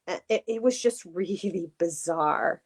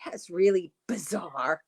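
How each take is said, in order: First: A hint of MJ's catchphrase voice, laughing; sounding like MJ. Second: Slow, light take on MJ's "really bizarre"; MJ impression. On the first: Real, not acted. To her cohost, unintentionally sounding like MJ, lightly. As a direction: slips into MJ's way of saying it. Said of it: "I just sounded like M J there". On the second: Shown as a demonstration. For the live audience, a slow playful MJ imitation. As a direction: mimic MJ's catchphrase, drawn out. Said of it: "how'd I do?".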